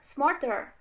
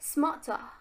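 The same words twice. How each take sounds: First: The R sounds are clearly pronounced. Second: The R sounds are dropped. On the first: "in American is pronounced smarter" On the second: "in British or Australian is pronounced smarter"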